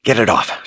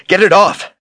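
First: Higher, urgent plea; crying out. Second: Shrieked, far higher and louder; panicked cry. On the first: Kahlan with a severed claw on her leg, crying out. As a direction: cry out in alarm, not yet at full volume. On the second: Kahlan desperate to lose the severed arm, panicked scream. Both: Acted. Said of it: "she cried".

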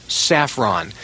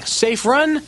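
First: Said in the usual way. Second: Safe run said high and apart as two words; broken into two words. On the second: Shown as a demonstration.

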